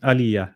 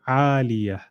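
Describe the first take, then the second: First: The vowel after the first sound is short. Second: The vowel after the first sound is drawn out. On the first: The speaker calls it wrong. "you're saying aliyah" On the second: The speaker calls it right. "you must pull your ayn"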